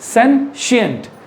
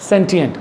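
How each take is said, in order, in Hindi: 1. शब्द के बीच में 'sh' की आवाज़ है। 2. शब्द के बीच में 'sh' की आवाज़ नहीं है। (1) "तालब शो आएगा आपके मुंह में" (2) "नॉट सेंटिएंट"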